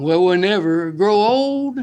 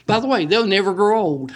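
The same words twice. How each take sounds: First: Slow, half-sung hymn line; sung, drift into the old gospel tune; singing the hymn. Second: Said in the usual way. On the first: Retold or imitated. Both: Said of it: "We sing that song".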